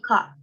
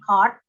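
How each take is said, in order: First: The R after the vowel is silent. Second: The R after the vowel is pronounced.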